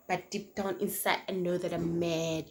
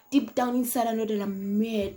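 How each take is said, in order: First: Said in the usual way. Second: Repeated louder with rising anger; fuming repeat. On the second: Retold or imitated. Telling the guy she's mad, said louder and fuming. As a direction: lean in hard, she's furious inside.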